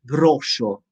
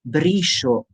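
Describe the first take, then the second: First: The vowel after the R is an O sound. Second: The vowel after the R is an E sound. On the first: The speaker calls it wrong. "not vowel O" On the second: The speaker calls it right. "with vowel E after R"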